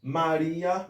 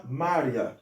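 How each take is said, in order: First: Maria as ma-RI-a, i held as a full syllable; three-beat Maria with the weight on RI; stress on the I. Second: Maria as MA-rya, dropping in pitch after MA; two-beat Maria, i gliding quickly into a; lower, falling Maria with the weight on MA; stress on first syllable. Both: Shown as a demonstration. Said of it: "avèk de aksan tonik lan".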